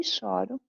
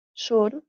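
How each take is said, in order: First: Choro with an open ó, like chóro, I cry as a verb. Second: Choro with a closed ô, like chôro, crying as a noun. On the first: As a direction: say choro with open ó on the first syllable. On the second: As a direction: say Choro with closed ô on the first syllable. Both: Shown as a demonstration. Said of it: "Só que a pronúncia é diferente".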